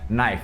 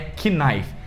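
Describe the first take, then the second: First: The word begins with an n sound. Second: The word begins with a k sound. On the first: The speaker calls it right. "a gente só fala como se começasse no N mesmo" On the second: The speaker calls it wrong. "não é knife"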